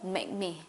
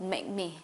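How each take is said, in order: First: The k sound is nearly silent before me. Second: The k sound is nearly silent before me.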